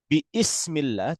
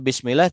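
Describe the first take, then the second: First: An extra i vowel is heard after bi. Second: Bi runs straight into smillah with no extra vowel. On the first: The speaker calls it wrong. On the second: The speaker calls it right. "Makanya kita baca"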